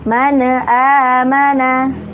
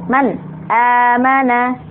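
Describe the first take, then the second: First: The n is bounced with an echoing vowel. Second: The n is cut off abruptly. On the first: "nun sukun atau tanwin yang kemudian dipantulkan" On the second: "cara membacanya dihentakkan"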